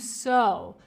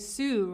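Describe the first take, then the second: First: The vowel sounds like 'oh', as in 'so'. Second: The vowel sounds like 'oo', as in 'sue'. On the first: The speaker calls it right. "You pronounce it as if it had an O" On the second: The speaker calls it wrong. "It looks like you would say sue"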